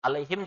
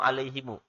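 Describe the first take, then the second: First: The word ends on the m sound. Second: The word ends with an added u vowel. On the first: This is the usual reading. "Alaihim dibaca alaihimu" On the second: This follows one transmitted reading tradition. "Ini namanya riwayat Imam Kumbul"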